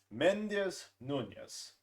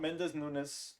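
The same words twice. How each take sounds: First: "Mendez Nunez" slow, nunjes at the end; "Mendez Nunez" slow and emphatic, the right way; correct pronunciation. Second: "Mendez Nunes" with a plain s ending, the wrong way; "Mendez Nunes" as the mistaken version; wrong pronunciation. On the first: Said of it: "It's pronounced Mendez Nunez". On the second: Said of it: "Not Mendez Nunes". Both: Shown as a demonstration.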